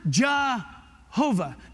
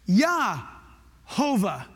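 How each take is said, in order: First: The name begins with a J sound. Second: The name begins with a Y sound. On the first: The speaker calls it wrong. "Not Jehovah" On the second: The speaker calls it right. "There is no J sound. It's Yah"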